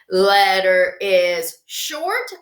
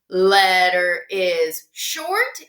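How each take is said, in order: The two takes are said the same way.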